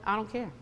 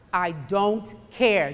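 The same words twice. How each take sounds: First: Said in the usual way. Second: "I don't care" drawn out very slowly, each word weighted; emphatic repeat. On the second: Retold or imitated. Preacher retelling her retort to worry, slow and emphatic. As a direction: hold "don't" and "care" long and firm.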